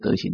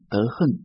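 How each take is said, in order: First: The second syllable is pronounced xing. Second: The second syllable is pronounced heng. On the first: The speaker calls it right. "德行就好了" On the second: The speaker calls it wrong. "现在都念德恨"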